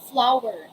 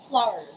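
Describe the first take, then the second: First: The w sound is pronounced clearly and separately. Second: The w sound is barely heard, blended in. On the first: The speaker calls it wrong. "It's not flower" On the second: The speaker calls it right. "letter W is not directly pronounced"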